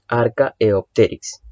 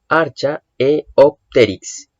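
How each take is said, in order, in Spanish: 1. La 'ch' suena como un sonido 'k'. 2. La 'ch' suena como la 'ch' de 'church'. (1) "La che, en vez de sonar como una che, suena como una k" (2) "así se pronuncia"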